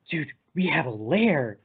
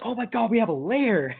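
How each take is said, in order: First: Slowed-down, awestruck imitation; imitating someone amazed at a discovery; mock awe. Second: High-pitched, thrilled imitation; hammed-up, high delighted outburst; mock excitement. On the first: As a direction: draw it out in pretend wonder. Retold awed reaction to finding lair. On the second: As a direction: squeal it like an overexcited friend. Retold Freddy's thrilled reaction to lair.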